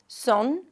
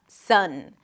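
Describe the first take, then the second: First: The vowel sounds rounded, like oh. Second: The vowel sounds relaxed, like uh. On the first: The speaker calls it wrong. "Some people might pronounce it more like O" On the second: The speaker calls it right. "make sure you keep the tongue kind of flat, slightly high, and that your lips are relaxed"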